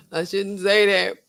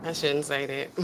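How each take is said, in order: First: "I shouldn't say that" drawn out slowly through a laugh; slow and laughing, half-guilty. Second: "I shouldn't say that" said lower and softer, to herself; softer, lower, a quiet self-check; hushed aside. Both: Real, not acted.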